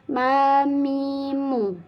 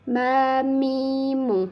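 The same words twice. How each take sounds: No difference in how they are said.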